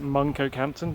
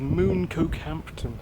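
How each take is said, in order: First: The first syllable sounds like 'mun'. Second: The first syllable sounds like 'moon'. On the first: The speaker calls it right. "I think you pronounce it Muncokehampton" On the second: The speaker calls it wrong. "which I always pronounce the name wrong"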